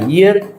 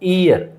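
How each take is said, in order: First: The word begins with a clear y sound. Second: The word begins without a y sound. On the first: The speaker calls it right. "ये की sound आती है" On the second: The speaker calls it wrong. "हमेशा हम लोग बोलते हैं इस वर्ड को दोस्तों ईयर, लेकिन ये वर्ड ऐसे नहीं होता है"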